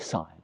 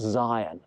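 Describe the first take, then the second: First: The name begins with an s sound. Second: The name begins with a z sound. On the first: The speaker calls it wrong. "Now I say Sion" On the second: The speaker calls it right. "but actually it's pronounced Zion"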